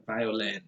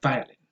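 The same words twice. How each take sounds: First: Violin with LIN stressed; correct stress. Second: Violin with VI stressed, end reduced; VI-o-lin for violin; wrong stress. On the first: Correcting the mistake for learners, violin stressed on LIN. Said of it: "primary stress is on". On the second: Showing learners what to avoid, violin stressed on VI. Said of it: "probably not". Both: Shown as a demonstration.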